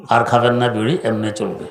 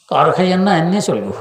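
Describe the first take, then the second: First: Said in the usual way. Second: Higher, Noakhali dialect admonition. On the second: Retold or imitated. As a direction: gently forbid it in Noakhali dialect, pitched up. (নোয়াখালীর ভাষায় উঁচু গলায় নিষেধ) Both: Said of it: "নোয়াখালীর ভাষায় কথা বলতেন".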